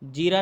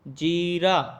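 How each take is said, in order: First: The first vowel is short. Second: The first vowel is long. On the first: The speaker calls it wrong. "नहीं" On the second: The speaker calls it right. "बड़ी की मात्रा जीरा"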